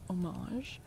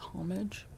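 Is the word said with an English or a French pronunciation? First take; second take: French; English. First: The word is said with a French pronunciation. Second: The word is said with an English pronunciation. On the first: "the French pronunciation is" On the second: "the English pronunciation is"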